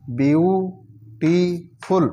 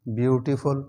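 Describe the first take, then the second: First: beautiful stretched slowly, syllable by syllable; slow syllable drill. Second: Said in the usual way. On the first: Shown as a demonstration. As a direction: draw beautiful out in slow parts. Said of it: "syllable drilling". (Beautiful को धीरे खींचकर बोलना) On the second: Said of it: "normal reading after drill".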